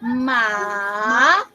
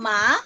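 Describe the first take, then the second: First: The pitch dips down and then rises. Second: The pitch rises through the syllable. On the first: "the downward and upward motion of your voice" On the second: "sa akyat lang"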